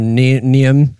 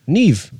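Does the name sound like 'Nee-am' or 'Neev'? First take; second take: Nee-am; Neev. First: The name is said in two syllables, 'Nee-am'. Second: The name is said in one syllable, 'Neev'. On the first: The speaker calls it wrong. "we butchered her name. I think we were saying like Niam" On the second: The speaker calls it right. "it is pronounced Neve. N-E-E-V"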